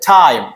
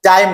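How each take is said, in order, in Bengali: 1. t উচ্চারিত হয় বাতাসের ঝলকসহ। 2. t উচ্চারিত হয় বাতাসের ঝলক ছাড়া। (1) "এটা হবে টাইম" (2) "যেমন টাইম না"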